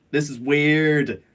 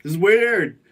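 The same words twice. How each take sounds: First: Said in the usual way. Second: Punched-up, louder this is weird; louder emphatic repeat. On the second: Shown as a demonstration. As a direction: hit the word weird harder. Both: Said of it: "Oh, this is weird".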